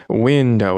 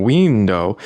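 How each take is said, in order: First: "window" with a short i, as in "win"; standard window. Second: "window" with a long ee, like "weendow"; Russian-accented window. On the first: Shown as a demonstration. Coaching a Russian friend, modelling a standard "window". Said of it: "say window". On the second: Retold or imitated. Coaching a Russian friend, imitating his accented "window". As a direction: say "window" with ee in place of short i. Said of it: "instead of saying window".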